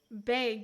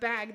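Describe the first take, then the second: First: The word is said with a Canadian vowel. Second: The word is said with a standard vowel. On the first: "they say bag" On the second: "instead of bag"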